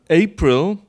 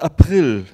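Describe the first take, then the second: First: The stress is on the first syllable. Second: The stress is on the second syllable. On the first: This is the English pronunciation. "the English don't. So this is trochaic rhythm" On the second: This is the German pronunciation. "April in German. So we are unified in stressing the second syllable"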